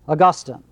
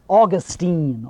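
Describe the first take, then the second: First: Pronounced the way the church father's name is. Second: Pronounced the way the Florida city's name is. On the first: It names the church father. The speaker calls it right. "Augustine, not Augustine" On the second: It names a city in Florida. The speaker calls it wrong. "Augustine is a city in Florida"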